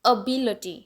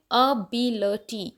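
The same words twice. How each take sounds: First: ability as one joined word, बि stressed; connected ability with weight on बि; stress on second syllable. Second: ability slowly, syllable by syllable, बि stressed; slow, separated ability with weight on बि; stress on second syllable. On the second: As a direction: break up ability, leaning on बि. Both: Shown as a demonstration. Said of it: "बी के ऊपर stress है".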